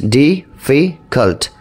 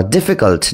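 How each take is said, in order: First: difficult split slowly into ডি, ফি, cult; slow, segmented difficult with a gap after each syllable. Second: Said in the usual way. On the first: Shown as a demonstration. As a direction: break difficult into three separate beats. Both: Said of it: "three সিলেবলসের হলে".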